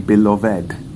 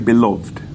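First: The ending -ed is a separate syllable. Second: The ending -ed is not a separate syllable. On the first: The speaker calls it right. "we say beloved, all right? But not quite, so ed" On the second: The speaker calls it wrong. "we don't say beloved"

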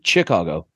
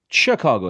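First: Chicago is said the way English spelling suggests. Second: Chicago is said the usual, French-derived way. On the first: This is how it would sound if the name were English. "If it was in English, it would be Chicago" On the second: This is the form people actually use. "That's why we say Chicago"

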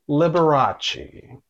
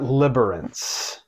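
First: The name is said without an n sound. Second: The name is said with an added n sound. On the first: The speaker calls it right. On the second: The speaker calls it wrong. "Not Liberace. ... There's not even an N in Liberace"

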